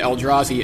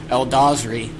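First: The r sound comes right after the d. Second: The r sound comes right after the z. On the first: The speaker calls it right. "pronounces it right" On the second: The speaker calls it wrong. "keeps referring to the Eldrazi as Eldazri"

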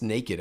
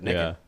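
First: It is said with a standard pronunciation. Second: It is said with a Southern pronunciation. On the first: The speaker calls it right. "you're saying it wrong. It's naked" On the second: The speaker calls it wrong. "I just thought that's how you pronounced it"

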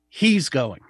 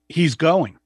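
First: The stress falls on the word 'he's'. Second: The stress falls on the word 'going'. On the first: It is him, not her, who is going. "as opposed to she's going" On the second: He is definitely going, despite objections. "which is kind of like, I don't want him to go. And the other person's saying, no, he's going"

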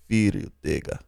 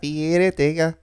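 First: It is said in an Italian mafia-style accent. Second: It is said in a Spanish accent. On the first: "Maybe say it like with a mafia tone" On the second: "Try Spanish"

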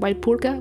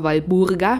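First: The middle consonant is a hard p. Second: The middle consonant is a soft b. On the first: The speaker calls it wrong. "nicht so wie die Franken, ne? Die denen sagen Walpurga" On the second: The speaker calls it right. "mit B, mit einem weichen B"

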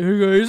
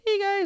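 First: It is said in a deep, manly voice. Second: It is said in a high, boyish voice.

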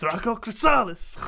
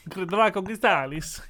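First: The name is said dramatically, like casting a spell. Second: The name is said in a plain, ordinary way.

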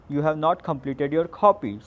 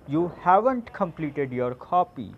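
First: The words 'have not' are said in full. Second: The words 'have not' are contracted to 'haven't'. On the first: "So instead of saying this" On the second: "you can say"

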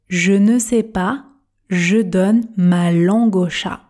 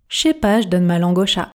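First: The phrase is spoken very slowly and carefully. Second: The phrase is spoken quickly with dropped sounds. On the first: "Vitesse tortue" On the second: "Version express"

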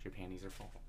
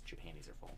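First: The phrase is said at a normal, slower pace. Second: The phrase is said fast, the words running together.

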